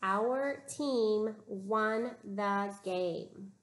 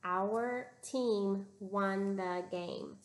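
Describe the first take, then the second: First: Slow, even modeled sentence; teacher reading the sentence slowly for students to copy. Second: Slow, even reading together; teacher reading along slowly with students; slow choral reading. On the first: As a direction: read it slowly word by word, as a model for the class. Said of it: "Listen to the sentence". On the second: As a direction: read it slowly in unison with the class. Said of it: "Read it with me". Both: Shown as a demonstration.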